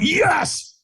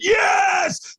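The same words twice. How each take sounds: First: It is said somewhat louder and firmer. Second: It is shouted loudly with full force.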